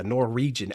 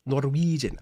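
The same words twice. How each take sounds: First: Said in the usual way. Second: Lightly put-on Norwegian accent; a playful touch of Norwegian accent; mock Norwegian accent. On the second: Streamer toying with the word, light mock Norwegian accent. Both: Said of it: "like, a Norwegian accent".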